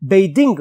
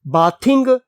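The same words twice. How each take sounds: First: "बेदिंग" said with a long e, as bay-ding; pron as bathing. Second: "बाथिंग" said with a short a, as baath-ing, the wrong way; wrong reading. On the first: Teacher giving the right reading of the verb form "बेदिंग". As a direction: say "बेदिंग", not baathing. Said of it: "ये क्या बन जाएगा". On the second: Teacher warning the students against the reading "बाथिंग". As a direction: say "बाथिंग" as the mistake to avoid. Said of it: "नहीं पढ़ा जाता इसको". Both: Shown as a demonstration.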